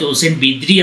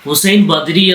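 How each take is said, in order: First: The second name is said with an i vowel. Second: The second name is said with an a vowel. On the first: The speaker calls it right. "Hussain ബിദ്രി എന്നാണ്" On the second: The speaker calls it wrong. "Hussain ബദ്രി എന്ന് നിങ്ങൾ വായിച്ച"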